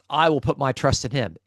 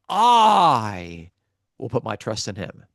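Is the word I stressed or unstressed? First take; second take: unstressed; stressed. First: The word I is not stressed. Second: The word I is strongly stressed.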